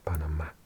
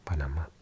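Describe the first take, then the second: First: It is pronounced the Spanish way, stress shifted. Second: It is pronounced the Spanish way, stress shifted.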